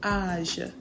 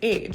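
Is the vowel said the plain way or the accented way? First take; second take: accented; plain. First: The vowel is said with the accented A sound. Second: The vowel is said as if it were unaccented. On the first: "But there's a l'accent circumflex above the A, so it's age" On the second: "you'd say age"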